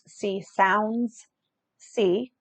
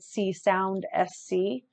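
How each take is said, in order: First: The S is joined onto the word sound. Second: The S is said as a separate letter. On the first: The speaker calls it right. "and it's C Sounds C" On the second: The speaker calls it wrong. "I said C Sound S C"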